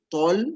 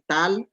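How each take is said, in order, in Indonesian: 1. Suku kata ini memiliki vokal 'o' yang berat dan membulat. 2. Suku kata ini memiliki vokal 'a' yang ringan dan terbuka. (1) "tol, bukan tal" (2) "bukan tal"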